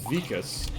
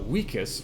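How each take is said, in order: First: The word begins with a V sound. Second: The word begins with a W sound. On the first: The speaker calls it wrong. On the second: The speaker calls it right.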